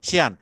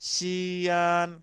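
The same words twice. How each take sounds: First: The word is said short, not drawn out. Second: The word is said stretched and drawn out. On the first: It means do this first. "শিয়ান মানে আ- আগে এটা করো" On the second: It is the name of a place. "এটা দেখেন একটু টান দিয়ে টান দিয়ে বলতেছে।"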